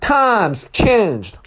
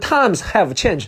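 First: The word have is weak, almost silent. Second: The word have is said fully with h.

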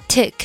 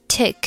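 No difference in how they are said.

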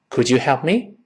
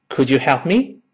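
Both takes have the same delivery.

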